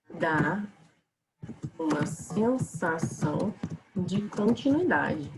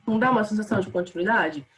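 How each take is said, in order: First: Slow, stretched words with a rising lift; slow, drawn-out pause in the middle; drawn-out continuity. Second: Said in the usual way. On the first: Shown as a demonstration. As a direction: stretch it out so it keeps going.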